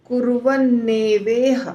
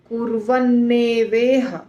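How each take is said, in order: First: The three words are run together as one word. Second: The same.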